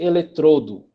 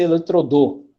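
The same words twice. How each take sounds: First: Eletrodo slowed, stress on tro with closed o, e-le-TRO-do; stress on second syllable. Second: Eletrodô stressed on the end, e-le-tro-DÔ; stress on last syllable. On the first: Teacher to class, showing the right option: eletrodo stressed e-le-TRO-do. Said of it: "Se for dois". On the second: Teacher to class, showing the wrong option: eletrodô stressed at the end. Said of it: "E se for um". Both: Shown as a demonstration.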